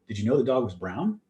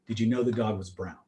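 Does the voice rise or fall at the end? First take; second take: rise; fall. First: It is said as a question. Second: It is said as a statement.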